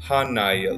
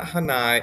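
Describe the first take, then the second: First: The vowel after the h is long. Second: The vowel after the h is short. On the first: The speaker calls it right. "it does have a kahako above the A after the H" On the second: The speaker calls it wrong. "it's not Hānai"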